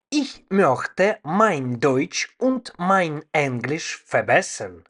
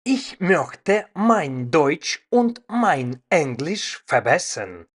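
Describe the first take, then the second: No difference in how they are said.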